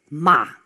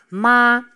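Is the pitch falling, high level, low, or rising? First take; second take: falling; high level. First: The pitch drops steeply, like an angry word. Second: The pitch stays high and level. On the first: It means to curse. "wat wij doen als we boos zijn. Dus die gaat heel steil naar beneden" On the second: It means mother. "De eerste is een hele hoge toon. Die is heel gelijk"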